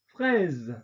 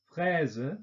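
First: 'fraise.' said the French way, fʁɛz with a released voiced z; French 'fraise.' with no schwa. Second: 'Fraise' said the German way, with a final schwa, fʁɛzə; German 'Fraise' with a trailing schwa; German-style. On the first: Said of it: "französischen Aussprache mit Detente". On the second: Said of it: "deutsche Aussprache ... Schwarlaut". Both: Shown as a demonstration.

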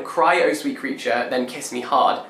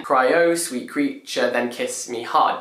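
First: Said in the usual way. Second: "Cry, oh sweet creature, then kiss me hard" slowly beaten out by syllable; slow metrical beat through "Cry, oh sweet creature, then kiss me hard"; syllable-by-syllable scansion. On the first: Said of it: "because the line". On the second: Shown as a demonstration. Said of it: "only nine syllables instead of ten".

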